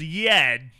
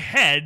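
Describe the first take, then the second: First: The word starts with a y sound. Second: The word starts with an h sound. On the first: The speaker calls it wrong. "He says" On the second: The speaker calls it right. "he doesn't say"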